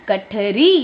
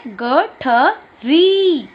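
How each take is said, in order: First: Said in the usual way. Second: Very slow, stretched teacher model; drawn-out demo word. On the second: Shown as a demonstration. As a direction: stretch every sound for the class. (धीरे-धीरे खींचकर बोला गया शब्द) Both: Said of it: "पहला चित्र किसका बना है?".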